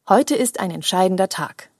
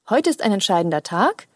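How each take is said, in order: First: The voice falls at the end of the sentence. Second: The voice stays up at the end of the sentence.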